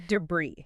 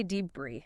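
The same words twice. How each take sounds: First: "debris" as duh-BREE, second syllable stressed; correct stress. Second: "debris" as DEE-bree, first syllable stressed; wrong stress. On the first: Host correcting the slip, correct stress. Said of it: "But it's debris". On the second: Host admitting her usual slip, wrong stress. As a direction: hit a long dee in "debris". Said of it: "I always wanna say". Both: Shown as a demonstration.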